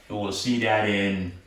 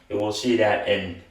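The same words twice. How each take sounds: The two takes are said the same way.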